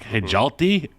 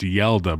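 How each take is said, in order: First: The name begins with an H sound. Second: The name begins with a Y sound. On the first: The speaker calls it wrong. "which is like Hijalti" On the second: The speaker calls it right. "nah, it's Yelda, bro"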